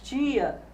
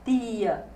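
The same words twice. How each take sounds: First: Said in the way Goiás speakers say it. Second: Said in a way Goiás speakers do not use. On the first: "mas diz tia" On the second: "o falante goiano não diz tia"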